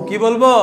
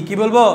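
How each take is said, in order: The two takes are said the same way.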